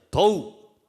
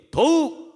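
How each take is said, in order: First: Said in the usual way. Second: 더욱 shouted high and loud; louder. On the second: Shown as a demonstration. Preacher leading congregation to repeat, louder shout. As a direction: call out 더욱 for everyone to repeat louder. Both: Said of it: "더 크게요".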